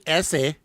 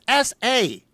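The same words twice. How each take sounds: First: It is run together as one word. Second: It is spoken as two separate letters. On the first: It is taken as an accented word. The speaker calls it wrong. "it's not an accent" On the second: It stands for initials. The speaker calls it right. "Their initials"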